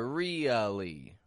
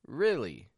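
First: The first vowel is a long, forced ee sound. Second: The first vowel is a short ih sound. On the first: The speaker calls it wrong. "they force it out as a really" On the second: The speaker calls it right. "But the pronunciation, rih, really"

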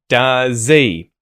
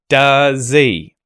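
First: The H is dropped but the vowel is full. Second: The same.

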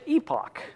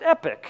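First: The word is pronounced the British way. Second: The word is pronounced like 'epic'. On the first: "if you're British, you pronounce it epoch" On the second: "if you don't know how to pronounce it, you pronounce it epic"

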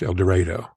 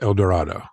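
First: It is said the way local people say it. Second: It is said the way the spelling suggests. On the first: This is how the town's residents say it. "It's pronounced El Dorado" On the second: This is how outsiders would expect it to sound. "which should be pronounced El Dorado"

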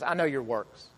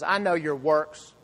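First: It is said in a gentle, kind tone. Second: It is said in a harsh, accusing tone.

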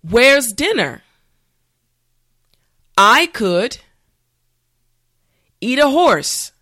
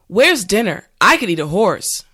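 First: The sentence is said slowly and carefully. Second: The sentence is said at normal speed. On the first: "this time repeat after me" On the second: "the last time at a regular pace"

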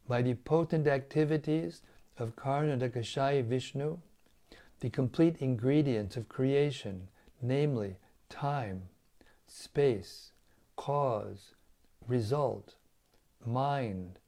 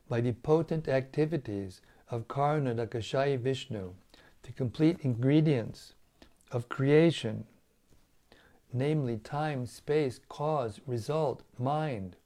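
First: It is read at a slower pace. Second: It is read at a faster pace.

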